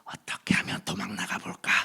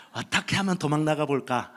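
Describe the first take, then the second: First: Whispered, secret wish to slip away; whispered inner thought. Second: Said in the usual way. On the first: Retold or imitated. Preacher recalling his secret wish, whispered. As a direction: breathe it as a hidden thought. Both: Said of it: "십 년을 있으면서".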